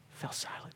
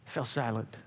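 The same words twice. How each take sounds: First: Whispered, barely audible. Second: Softer, lower repeat; quiet echo. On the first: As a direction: breathe it out as a hush. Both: Shown as a demonstration.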